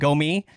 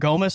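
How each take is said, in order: First: The name is said with a French pronunciation. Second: The name is said with an American pronunciation. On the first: "I was going with the pronunciation Gomi, since he's French" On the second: "if you want to just like dumb it down to the way we talk here in America"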